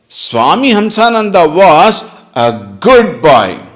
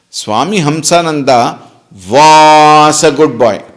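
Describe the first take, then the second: First: The stress falls on the word good. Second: The stress falls on the word was. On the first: He is bad now. "Meaning what? He is bad now" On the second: He is no longer good. "Meaning now he is not"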